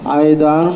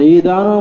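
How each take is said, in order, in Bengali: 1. প্রথম সিলেবলে একটি 'ay' যৌগিক স্বর আছে। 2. প্রথম সিলেবলে একটি দীর্ঘ 'ee' স্বরধ্বনি আছে। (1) "বফতে আইন" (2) "বকসরে আইন"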